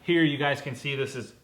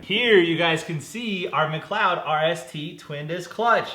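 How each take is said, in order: First: Said in the usual way. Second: Big, slow product reveal; grand presenter-style unveiling; showy retake. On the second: Real, not acted. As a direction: present it louder and higher, drawn out. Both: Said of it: "We'll try that again".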